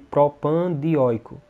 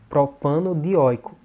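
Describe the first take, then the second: First: No vowel joins 'propan' to 'dioico'. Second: An 'o' vowel joins 'propan' to 'dioico'. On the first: The speaker calls it wrong. "Parece que tem uma pausa no nome" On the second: The speaker calls it right. "É bem mais fácil de pronunciar"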